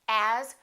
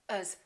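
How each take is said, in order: First: The vowel in as is full. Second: The vowel in as is reduced to uh.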